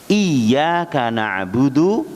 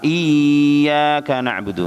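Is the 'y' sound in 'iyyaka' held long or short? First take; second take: short; long. First: The doubled y is pressed but kept short. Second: The doubled y is held for too long. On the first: The speaker calls it right. "Ditasydid, ditekan ya-nya" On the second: The speaker calls it wrong. "tapi jangan lama-lama"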